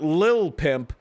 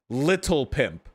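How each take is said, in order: First: The T sound in the first word is dropped. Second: The T sound in the first word is pronounced. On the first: "Not Lil Pimp" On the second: "He absolutely pronounced the T"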